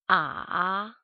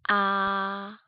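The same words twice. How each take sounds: First: The pitch dips low, then rises. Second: The pitch stays high and level. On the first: "Third tone sounds like starting angry and then goes up like a question" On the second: "First tone sounds like when we sing"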